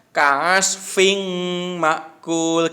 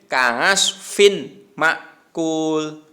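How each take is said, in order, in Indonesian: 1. Bunyi n kabur dan tersembunyi. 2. Bunyi n diucapkan dengan jelas. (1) "Tidak boleh samar juga" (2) "tidak boleh"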